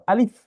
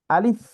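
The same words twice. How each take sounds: First: Said in the usual way. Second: আলিফ high and loud, lips spread wide; smiling alif. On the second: Shown as a demonstration. Teacher showing আলিফ with a smiling mouth. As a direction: say আলিফ with a smile, mouth stretched. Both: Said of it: "মুখে হাসি ভাব".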